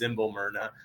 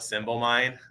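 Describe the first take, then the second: First: The name ends in two syllables, 'myrna'. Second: The name ends in a single syllable, 'mine'. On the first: The speaker calls it right. "it's actually pronounced Myrna" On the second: The speaker calls it wrong. "I always I call it Symbol Mine"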